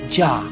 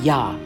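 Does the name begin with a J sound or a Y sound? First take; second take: J sound; Y sound. First: The name begins with a J sound. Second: The name begins with a Y sound. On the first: The speaker calls it wrong. "they have Jah" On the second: The speaker calls it right. "but it should be his name, Yah"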